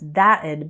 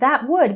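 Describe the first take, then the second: First: It is said as one contracted word. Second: It is said as two full words. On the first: "becomes that'd"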